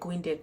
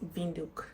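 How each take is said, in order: First: It begins with a W sound. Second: It begins with a V sound. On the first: The speaker calls it wrong. "I was calling it Windeck" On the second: The speaker calls it right. "It's pronounced Vinduk"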